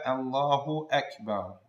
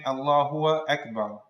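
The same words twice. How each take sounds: First: No w sound comes before Akbar. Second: A w sound comes before Akbar. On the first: The speaker calls it right. "make sure to pronounce the Hamza" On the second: The speaker calls it wrong. "add a wow between the uh, name of Allah and uh, the word Akbar"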